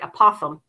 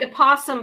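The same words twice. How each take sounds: First: The s sound is lisped like th. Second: The s sound is a plain hiss. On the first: "if you had a lisp and you said like a possum" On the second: "It's like a possum"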